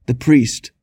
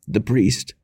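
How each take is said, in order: First: The repeat moaned more loudly; moaning louder. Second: Moaning. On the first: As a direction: cry out for the priest with more force. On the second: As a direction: call faintly for the priest. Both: A narrator's reading.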